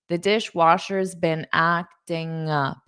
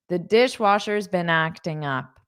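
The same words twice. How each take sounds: First: The sentence is said slowly and deliberately. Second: The sentence is said at a normal speaking pace.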